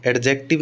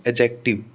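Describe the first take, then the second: First: एडजेक्टिव with the d sounded before j; wrong pronunciation. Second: एडजेक्टिव said as "ajective", d silent. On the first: Teacher showing the mistake, एडजेक्टिव with a sounded d. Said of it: "एडजेक्टिव नहीं". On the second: Teacher correcting the mistake, एडजेक्टिव with silent d. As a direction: skip the ड in एडजेक्टिव. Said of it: "डी silent रहता है". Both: Shown as a demonstration.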